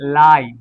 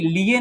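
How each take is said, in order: First: The vowel sounds like 'eye'. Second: The vowel sounds like 'ee'. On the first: The speaker calls it right. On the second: The speaker calls it wrong.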